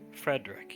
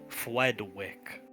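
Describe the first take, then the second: First: The r sounds are pronounced as clear r. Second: The r sounds are pronounced like w. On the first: The speaker calls it wrong. "You may never call Frederick Frederick" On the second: The speaker calls it right. "with the lisp"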